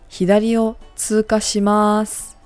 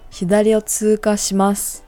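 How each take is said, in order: First: The final syllable mas is drawn out long. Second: The final syllable mas is short and clipped. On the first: The speaker is being casual and friendly. "The first one is more casual" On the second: The speaker is being polite and formal. "the second one is a lot more formal"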